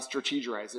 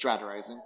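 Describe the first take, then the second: First: "strategizing" garbled as struh-TEE-jer-izing; mispronounced strategizing. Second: Said in the usual way. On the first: Shown as a demonstration. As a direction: quietly botch "strategizing" with an extra er syllable. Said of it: "saying that word wrong". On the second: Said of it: "It's not strategizing".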